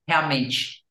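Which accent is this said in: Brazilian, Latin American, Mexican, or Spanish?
Brazilian. It is said with a Brazilian Portuguese accent. "how does that sound in Brazilian Portuguese? It's realmente"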